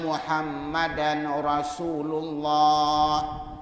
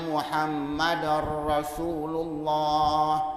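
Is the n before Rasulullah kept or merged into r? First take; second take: kept; merged. First: The n sound is clearly pronounced before r. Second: The n sound merges into the following r. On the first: The speaker calls it wrong. "Dia bunyikan tanwin" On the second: The speaker calls it right. "Sepatutnya ... idgham kepada ra"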